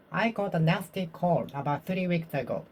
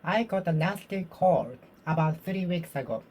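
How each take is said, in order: Both takes have the same delivery.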